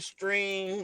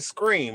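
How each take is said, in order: First: The word begins with a clear 'str' sound. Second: The word begins with a 'skr' sound. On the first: "like I normally do over there on TikTok" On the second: "I'm saying scream"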